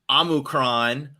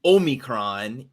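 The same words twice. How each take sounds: First: Omicron opening on "ah"; slow Omicron with a short, open first O; first accepted pronunciation. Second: Omicron opening on "oh"; slow Omicron with a long first O; second accepted pronunciation. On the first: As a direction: say "Omicron" as AH-mi-cron. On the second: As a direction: say "Omicron" as OH-mi-cron. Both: Shown as a demonstration. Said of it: "Either way would be acceptable ways".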